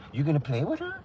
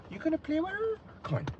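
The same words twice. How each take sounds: First: Said in the usual way. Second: High, soft cooing question; high, soft coo to the pup. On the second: Real, not acted. Baby talk to the dog.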